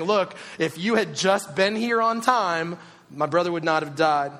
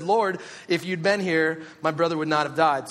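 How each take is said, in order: First: Blaming. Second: Said in the usual way. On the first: Retold or imitated. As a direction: lay the blame on every word. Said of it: "a little bit of blame is being placed". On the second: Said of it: "she fell at his feet and said".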